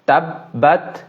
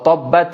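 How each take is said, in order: First: The first vowel sounds like an open 'a'. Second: The first vowel sounds like a rounded 'o'. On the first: The speaker calls it right. "তাব্বাত তাব্বাত" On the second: The speaker calls it wrong. "আমরা এটাকে তব্বাত এভাবে বলবো না"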